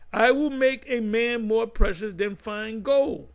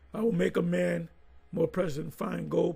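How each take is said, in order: First: It is read slowly and carefully. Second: It is read at normal speed.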